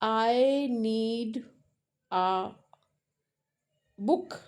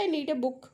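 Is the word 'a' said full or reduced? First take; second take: full; reduced. First: The word 'a' is said as a full vowel. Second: The word 'a' is said as a weak vowel. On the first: This is how a young learner says it. "छोटा रहता है तो वो बोलता है कि" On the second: This is how it is said in everyday speech. "जब हम रूटीन में आते हैं तो हम कहते हैं"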